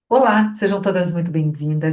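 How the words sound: It is said in a warm, lively voice. The greeting feels genuinely welcoming. The speaker calls it right. "Chega de uma forma muito mais acolhedora"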